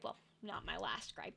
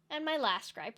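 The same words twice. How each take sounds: First: Well, not my last gripe dropped much softer as a quick correction; self-correcting aside. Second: Said in the usual way. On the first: Shown as a demonstration. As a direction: back down quietly and correct yourself.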